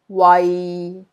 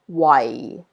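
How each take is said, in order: First: It is said with Cantonese tone six. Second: It is said with Cantonese tone four.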